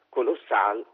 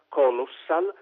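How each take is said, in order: First: The stress is on the last syllable. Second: The stress is on the first syllable. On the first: The speaker calls it right. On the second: The speaker calls it wrong. "accentare in italiano all'inizio"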